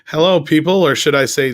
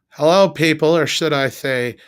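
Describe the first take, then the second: First: It is said in a plain voice. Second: It is said in a put-on lisping voice.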